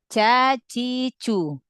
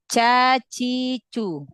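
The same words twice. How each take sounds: First: The consonant is soft, like ch. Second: The consonant is soft, like ch.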